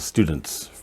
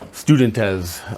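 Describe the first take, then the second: First: The plural ending joins the word without a syllable. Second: The plural ending is a separate extra syllable. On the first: The speaker calls it right. "it's just one" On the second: The speaker calls it wrong. "adding a syllable to the end of some plural forms"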